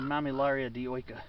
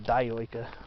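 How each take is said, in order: First: The i's are said like 'ee'. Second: The i's are said like 'eye'. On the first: "I usually pronounce the I's as E's or is" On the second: "Some people pronounce it dioica"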